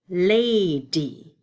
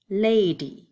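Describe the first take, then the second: First: "Lady" stretched into two loud chunks; syllable chunking. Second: Said in the usual way. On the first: Shown as a demonstration. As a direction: sound out "Lady" slowly for the kids. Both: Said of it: "Two syllables".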